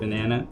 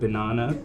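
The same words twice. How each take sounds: First: The word is said with an American pronunciation. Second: The word is said with a British pronunciation. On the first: "instead of banana" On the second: "I am British. I pronounce it banana"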